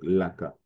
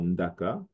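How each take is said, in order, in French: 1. Le mot commence par un son L. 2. Le mot commence par un son ND. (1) "peut devenir L, donc Laka" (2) "Le N D, comme dans Ndaka"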